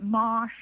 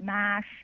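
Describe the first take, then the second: First: The vowel is an open 'o' sound. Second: The vowel is a flat 'a' sound. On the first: This is how some other people say it. "some pronounce it mosh" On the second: This is how the speaker says it. "I pronounce it mash"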